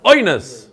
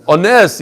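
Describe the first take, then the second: First: "oines" as OY-ness, first syllable punched high and falling; Americanized reading. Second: "ones" as oh-NESS, weight on the last syllable; stress on second syllable. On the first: Teacher mimics an American book reading, "oines" as OY-ness. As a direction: hit OY in "oines", swallow the ending. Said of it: "If you read like an Amerikanische book". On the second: Teacher shows rabbis how to read it, "ones" stressed on NES. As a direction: land firmly on the end of "ones": o-NES. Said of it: "it makes a difference how you read". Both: Shown as a demonstration.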